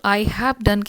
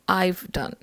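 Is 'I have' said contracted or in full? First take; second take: full; contracted. First: I have is said as two full words. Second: I have is shortened into one syllable. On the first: The speaker calls it wrong. "आई हैव done की जगह" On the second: The speaker calls it right. "Short form use करो"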